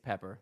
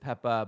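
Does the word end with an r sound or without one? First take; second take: with; without. First: The word ends with a clear r sound. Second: The word ends in a vowel without an r. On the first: This is how the speaker personally says it. "but to me it's Pepper" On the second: This is how the name's owners say it. "I know you pronounce it Peppa"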